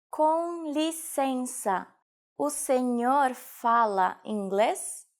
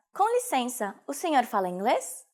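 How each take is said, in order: First: Very slow, stretched syllables; slow teaching repetition. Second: Said in the usual way. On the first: Shown as a demonstration. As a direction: draw out "Com licença, o senhor fala inglês" for learners. Teacher repeats sentence slowly. (slowed-down language-lesson model)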